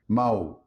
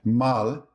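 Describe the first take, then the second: First: "mau" ending in an OO glide, no L; vocalized final L. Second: Said in the usual way. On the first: Shown as a demonstration. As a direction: round the end of "mau" into a W. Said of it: "Mal often sounds like mau". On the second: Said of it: "often sounds like mau".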